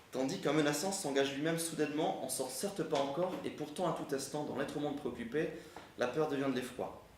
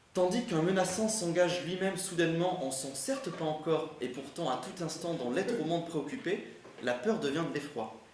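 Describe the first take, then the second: The two takes are said the same way.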